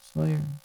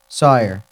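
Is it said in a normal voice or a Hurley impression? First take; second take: Hurley impression; normal voice. First: It is said in an impression of Hurley. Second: It is said in his own normal voice.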